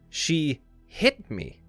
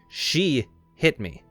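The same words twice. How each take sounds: First: The stress falls on the word hit. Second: The stress falls on the word she. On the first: The violent act was very uncalled for. "implies that the violent act was very uncalled for" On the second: The statement becomes an accusation of the hitter. "it puts focus on the hitter"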